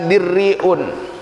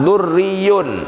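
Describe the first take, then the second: First: The first vowel is an i sound. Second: The first vowel is a u sound. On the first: "atau dibaca dirriun" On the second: "Kalau dibaca dhammah"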